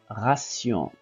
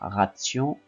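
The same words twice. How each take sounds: First: The middle consonant is an S sound. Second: The middle consonant is a T sound. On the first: The speaker calls it right. "mais ration" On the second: The speaker calls it wrong. "on ne lit pas ration"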